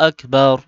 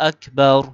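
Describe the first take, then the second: The two takes are said the same way.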